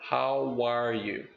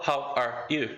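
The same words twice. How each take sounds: First: A w sound links how smoothly into are. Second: A glottal catch separates how from are. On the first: The speaker calls it right. "você simplesmente conecta U com R com W" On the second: The speaker calls it wrong. "a gente chama de glottal attack"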